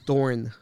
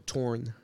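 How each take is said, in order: First: The word starts with a th sound. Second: The word starts with a plain t sound. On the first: The speaker calls it wrong. "You said Thorne" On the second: The speaker calls it right. "It's a torn"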